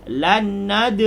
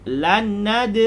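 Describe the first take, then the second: Both takes have the same delivery.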